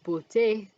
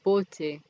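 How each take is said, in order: First: The stress is on the last syllable. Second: The stress is on the first syllable. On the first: The speaker calls it right. "the default stress falls on the last syllable" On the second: The speaker calls it wrong. "than beauté"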